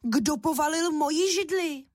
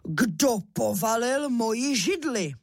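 First: Higher-pitched mama bear outcry; raised, high storybook bear voice; mother bear's voice. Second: Slow, drawn-out papa bear outcry; storybook father bear, indignant; strong bear voice. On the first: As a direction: cry out as an indignant mother bear. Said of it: "rozkřičela hlasem medvědí maminky". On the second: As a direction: demand it slowly as the big bear. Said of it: "rozkřičel svým silným medvědím hlasem". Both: A narrator's reading.

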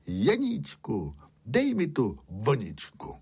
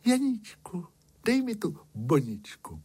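First: Lightly voiced shepherd, in the narrator's own register; storyteller's understated shepherd showing how to ask; shepherd dictating a request. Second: High-pitched princess, starting high on the name and easing down; storyteller's high princess voice; princess asking. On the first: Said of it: "přijít sám a říct". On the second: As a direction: ask in a high little princess voice. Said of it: "Princezna vyšla ze zámku na most a řekla". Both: A narrator's reading.

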